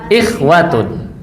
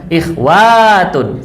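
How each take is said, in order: First: The vowel after the w is kept short. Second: The vowel after the w is held long. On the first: The speaker calls it right. "Yang betul ikhwatun" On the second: The speaker calls it wrong. "tidak boleh ikhwatun, salah"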